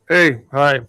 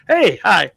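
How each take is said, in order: First: It sounds cold, suspicious and unwelcoming. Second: It sounds warm, smiling and welcoming.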